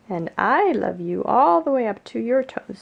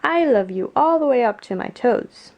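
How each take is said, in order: First: Big hare's reply, leaning on I and all; loud, swooping answer that tops the little one. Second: Eager little hare, higher and loud. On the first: Big hare answers Little hare, emphatic and affectionate. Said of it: "said Big Nut Brown Hare". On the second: Upside-down little hare tells Big hare, eagerly. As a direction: proudly declare it as the little character. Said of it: "he said". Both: A narrator's reading.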